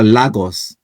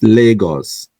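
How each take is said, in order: First: Lagos said as LAH-gos, open first vowel; wrong Lagos. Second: Lagos said as LAY-gos, first vowel like "lay"; correct Lagos. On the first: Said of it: "I hate it when they say that". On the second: Correcting viewers on Lagos, firm LAY-gos. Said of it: "It is Lagos". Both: Shown as a demonstration.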